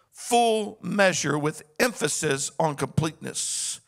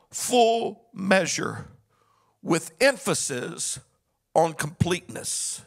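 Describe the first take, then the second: First: Said in the usual way. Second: "full measure" slowly, pausing before "with emphasis" and "on completeness"; spaced-out emphasis. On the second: Shown as a demonstration. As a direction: lay out each phrase with a pause between.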